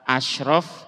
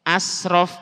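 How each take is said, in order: First: The consonant before 'raf' is a thick sh. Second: The consonant before 'raf' is a plain s. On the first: The name means noble. The speaker calls it right. "Kalau pakai shin, shin ya, tebel" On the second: The name means excessive. The speaker calls it wrong. "pakai sin kecil"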